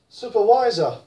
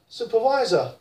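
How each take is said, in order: The two takes are said the same way.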